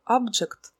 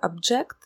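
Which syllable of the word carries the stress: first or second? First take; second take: first; second. First: The stress is on the first syllable. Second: The stress is on the second syllable. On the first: It names a thing or item. "Если взять слово object, это объект" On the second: It means to disagree or protest. "в роли глагола произносится object, возражать"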